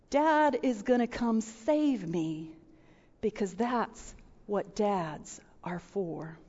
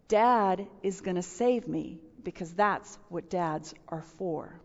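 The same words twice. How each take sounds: First: Soft, slow, tender; tender child's voice. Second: Hushed repeat. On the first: Pastor quoting her five-year-old son, tender and soft. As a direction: say it softly like a trusting little boy. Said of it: "Little five-year-old". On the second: Repeating the child's words. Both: Retold or imitated.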